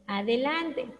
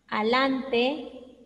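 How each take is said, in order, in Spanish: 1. Se pronuncian todas las sílabas completas. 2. Se omite una sílaba, y queda una forma acortada.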